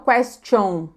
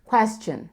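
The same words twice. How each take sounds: First: The final vowel is a rounded O sound. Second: The final vowel is short and unrounded. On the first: The speaker calls it wrong. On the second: The speaker calls it right.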